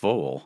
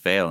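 First: The vowel is a rounded German umlaut sound. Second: The vowel is a plain American English sound. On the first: This is the original form of the name. The speaker calls it right. "instead of Foehl" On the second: This is the form used in America. The speaker calls it wrong. "when they Americanized it ... they said Foehl"

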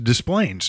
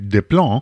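First: The name is pronounced the American way. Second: The name is pronounced the French way. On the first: The speaker calls it right. "But in truth" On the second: The speaker calls it wrong. "any French speaker would guess"

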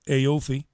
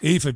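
First: The name is said in an American accent. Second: The name is said in a plain Irish accent.

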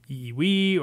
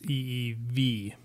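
First: The last consonant sounds like a W. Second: The last consonant sounds like a V. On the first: The speaker calls it wrong. "I never knew if it was E-E-W or E-E-V" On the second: The speaker calls it right. "but it's E-E-V"

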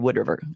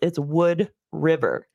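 First: It is run together as one word. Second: It is said as two separate words. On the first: The speaker sounds like a local. The speaker calls it right. "like all one word" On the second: The speaker does not sound local. The speaker calls it wrong. "it's two words"

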